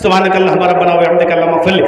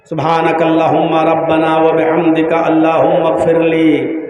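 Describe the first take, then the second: First: It is rattled off quickly, like parroted words. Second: It is said slowly, like a sincere request.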